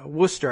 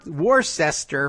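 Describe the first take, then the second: First: It is said in a short, clipped local form. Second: It is said with every spelled syllable sounded. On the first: This is how locals say the name. "how they would pronounce that up there in, in Massachusetts" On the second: This is how someone reading the spelling says it. "to anybody who's spelling it out"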